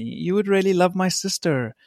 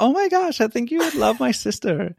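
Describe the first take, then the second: First: A light imitation of Brittany's American accent, with a laugh; mild American accent, half laughing; sister's American accent. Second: Much higher, gushing imitation of Brittany in an American accent; over-the-top American accent, squealing at the start; Brittany's American accent. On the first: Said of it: "Is that your American accent?". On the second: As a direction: ham up the sister's excited American gush. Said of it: "that's my Brittany accent".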